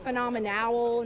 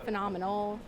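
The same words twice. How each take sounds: First: The ending is pronounced like the word owl. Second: The ending is pronounced as a plain nal. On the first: It is a pun on the owl mascot. "we had two years of owl puns, and so I said phenomenal" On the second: It is the ordinary word with no pun. "not phenomenal"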